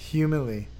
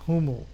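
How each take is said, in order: First: The final vowel is clearly pronounced. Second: The final vowel is left silent. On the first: The speaker calls it right. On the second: The speaker calls it wrong.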